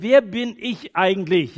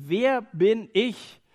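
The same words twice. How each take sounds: First: Moses. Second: Slow, high, louder wer at the start of "wer bin ich?"; stress on wer. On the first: Acted. Moses protesting to God. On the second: Shown as a demonstration. Preacher posing the Bible's first great question, stressing wer. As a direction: lean hard on "wer", draw the question out. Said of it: "Das eine Thema ist".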